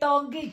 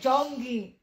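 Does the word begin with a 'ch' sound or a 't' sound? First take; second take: t; ch. First: The word begins with a plain t sound. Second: The word begins with a ch sound. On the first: The speaker calls it wrong. "Hindi tonggi" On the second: The speaker calls it right.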